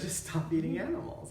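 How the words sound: It is said warmly, with a big smile. It disarms the listener. The speaker calls it right. "if I said it with a big smile"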